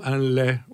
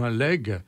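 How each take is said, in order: First: The word ends on a vowel, no g sound. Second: The word ends with a hard g sound. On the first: "mais plutôt un lait aussi" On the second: "on peut le prononcer"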